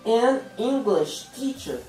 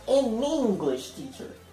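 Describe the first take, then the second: First: The first two words are said separately. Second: The first two words run together as one.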